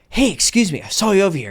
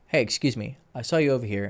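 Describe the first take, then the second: First: The voice is highly animated and over-excited. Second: The voice is flat with very little energy. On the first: The speaker is trying far too hard. "Too much" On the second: The speaker seems uninterested. "Now too boring"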